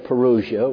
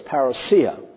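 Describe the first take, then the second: First: The word is said the common English way. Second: The word is said the Greek way. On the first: "I hear people say parousia, which is all right" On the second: "actually the Greek pronunciation is parousia"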